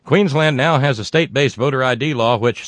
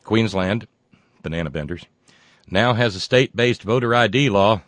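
First: Emphatic reread. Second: Said in the usual way. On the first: Acted. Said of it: "I'll never forget banana benders".

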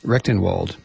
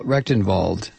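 First: Rechtenwald said with a W, "REK-ten-wald"; English W. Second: Rechtenwald said with a V, "REK-ten-vald"; German-style V. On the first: Host retrying the author's name, Rechtenwald with an English W sound. Second try at the same surname. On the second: Host reading the author's name, Rechtenwald with a German V sound. Reader tries two pronunciations of surname. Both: Real, not acted.

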